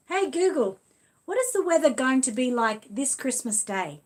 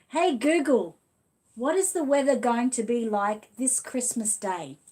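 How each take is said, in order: First: Loud, higher, clear command to the smart speaker; talking to Google. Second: Repeating to Google. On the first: Asking the Google speaker about Christmas weather, loud clear command. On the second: Retrying after Google ignored her, loud deliberate command. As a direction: say it again, loud and deliberate for the machine. She's not talking to me. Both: Real, not acted.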